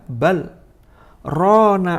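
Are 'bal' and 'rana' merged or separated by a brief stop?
separated. A brief stop without breath separates the two words. The words mean 'rather, it has rusted'. The speaker calls it right. "ayat ini dibaca dengan yang namanya saktah"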